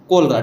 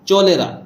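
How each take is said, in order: First: The word begins with a 'k' sound. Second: The word begins with a 'ch' sound. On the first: The speaker calls it right. "लेकिन इसको हम क्या पढ़ रहे हैं, कोलरा" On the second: The speaker calls it wrong. "इस हिसाब से अगर हम इसको पढ़ें तो ये हो जाएगा चोलेरा"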